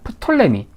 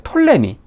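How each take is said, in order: First: The word begins with an audible P sound. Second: The word begins without any P sound.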